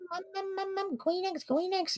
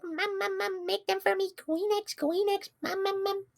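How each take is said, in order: First: Put-on very high weird baby voice. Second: Put-on very high whiny baby voice. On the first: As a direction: squeak it like a toddler. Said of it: "like, a weird". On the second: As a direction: beg like a toddler, squeaky and high. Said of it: "like, a baby voice".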